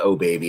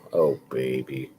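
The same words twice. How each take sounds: First: It is said loudly and excitedly. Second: It is said quietly and dejectedly.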